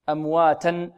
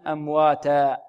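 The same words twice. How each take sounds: First: "أمواتا" said amwaatan, with final n; tanween sounded. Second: "أمواتا" said amwaataa, no final n; alif at pause. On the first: Teacher gives the running form first, "أمواتا" ending in -an. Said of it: "ولما كان التنوين في الوقف". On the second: Teacher gives the stopped form, "أمواتا" ending in long aa. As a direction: end "أمواتا" on an open long aa. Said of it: "يقلب ألفا". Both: Shown as a demonstration.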